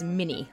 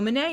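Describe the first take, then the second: First: It is said like 'mini', ending in 'ee'. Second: It is said the French way, ending in 'ay'. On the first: The speaker calls it wrong. "Most Americans pronounce this round as mini, like the mouse" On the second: The speaker calls it right. "the guy who invented it was French, so Manet is probably more correct"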